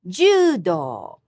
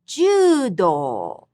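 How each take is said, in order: First: "Judo" repeated high on ju, low on do; high-low pitch. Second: "Judo" high on ju, falling on do; high-low pitch. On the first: Teacher repeating for students, high then low. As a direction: say "Judo" with a clear fall. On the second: Teacher modelling pitch accent, high then low. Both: Shown as a demonstration. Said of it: "high-low pitch pattern".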